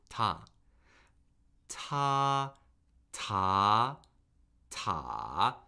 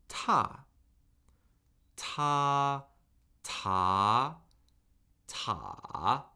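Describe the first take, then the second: The two takes are said the same way.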